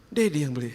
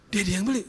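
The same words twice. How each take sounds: First: Said in the usual way. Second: High, rising question; surprised child's question. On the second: Acted. Child learns Daddy was the buyer, surprised. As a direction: echo it back higher, as a child would.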